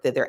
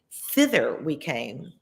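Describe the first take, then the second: First: Said in the usual way. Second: Thither drawn out slowly, rising; savoring thither. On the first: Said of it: "I love that word". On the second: Shown as a demonstration. Reader who loves the word thither, slow savouring stress. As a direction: linger lovingly on Thither. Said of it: "I love that word, thither".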